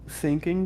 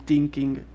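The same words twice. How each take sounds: First: The first sound is a lisped th. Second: The first sound is a hard t. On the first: The speaker calls it right. "pronounce it if you had lisp" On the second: The speaker calls it wrong. "pronounce it with a T"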